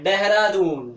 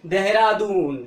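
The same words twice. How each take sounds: First: देहरादून with a hard retroflex D, as in English; English-style pronunciation. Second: देहरादून with a dental d; Hindi pronunciation. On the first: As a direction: say देहरादून the English way, tongue curled back. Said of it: "English में क्या बोलते हैं". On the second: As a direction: say देहरादून the Hindi way, tongue on the teeth. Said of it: "हम बोलते हैं हिंदी में". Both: Shown as a demonstration.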